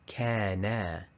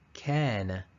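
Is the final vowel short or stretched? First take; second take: stretched; short. First: The final vowel is stretched out long. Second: The final vowel is kept short. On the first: The speaker calls it wrong. "the mistake, is kana" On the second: The speaker calls it right. "the correct answer here is kana"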